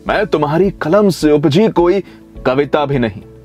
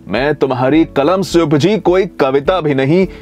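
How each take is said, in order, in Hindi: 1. यह पंक्ति एक सहज, लगातार प्रवाह में पढ़ी जाती है। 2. यह पंक्ति एक सहज, लगातार प्रवाह में पढ़ी जाती है।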